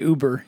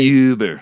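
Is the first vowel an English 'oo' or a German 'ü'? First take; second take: English oo; German ü. First: The first vowel is a plain English 'oo'. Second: The first vowel is a rounded German 'ü'. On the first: It names the car company. "You don't say uber" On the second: It is the German word. "You say uber"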